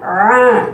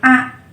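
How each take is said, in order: First: The sound comes from the throat, not nasal. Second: The sound comes through the nose, nasal. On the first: The speaker calls it right. "A dari tenggorokan tengah. A a bukan dari hidung" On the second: The speaker calls it wrong. "Kalau dari hidung a ya"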